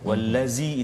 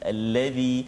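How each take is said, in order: First: The consonant is a 'z' with tongue in. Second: The consonant is a 'dh' with tongue out. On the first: The speaker calls it wrong. "kalau tak jadi zai, ... itu zai itu tak keluar lidah" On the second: The speaker calls it right. "bila kita menyebut huruf dzal, lidah kita sedikit keluar"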